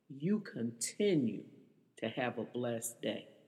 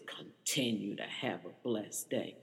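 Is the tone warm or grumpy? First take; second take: warm; grumpy. First: It is said in a warm, kind tone. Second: It is said in a grumpy, mocking tone.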